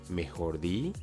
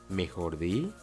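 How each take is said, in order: The two takes are said the same way.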